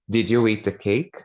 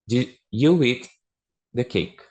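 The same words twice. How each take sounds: First: It ends with rising pitch, like a question. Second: It ends flat, like a statement. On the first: It asks whether someone ate the cake. "Já dá para entender que é uma pergunta" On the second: It states that someone ate the cake.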